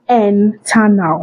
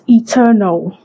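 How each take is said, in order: First: The word begins with an added n sound. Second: The word begins without any n sound. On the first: The speaker calls it wrong. "You add N, right? You say it's eternal" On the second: The speaker calls it right. "Remove that first N and pronounce it as eternal"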